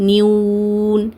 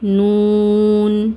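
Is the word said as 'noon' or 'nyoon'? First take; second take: nyoon; noon. First: A y glide comes before the long u vowel. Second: No glide comes before the long u vowel. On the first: The speaker calls it wrong. "இந்த வாவை நியூன் நியூ நியூன் இந்த மாதிரி ஓதுவாங்க" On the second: The speaker calls it right. "நூன் நூன் இந்த மாதிரி ஓதுங்க"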